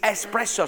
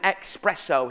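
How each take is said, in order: First: The word begins with an 'ess' sound. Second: The word begins with an 'ex' sound. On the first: The speaker calls it right. "It's espresso" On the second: The speaker calls it wrong. "There's no X in it"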